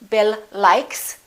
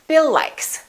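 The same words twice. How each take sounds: First: The two words are separated by a break. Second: The two words are linked without a break.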